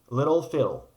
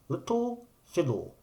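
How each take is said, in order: First: It is said in an American accent. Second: It is said in a British accent.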